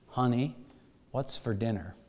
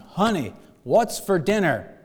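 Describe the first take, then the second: First: It is said softly and quietly. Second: It is said in a loud voice. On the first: "he softly said" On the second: "he said in a loud voice this time"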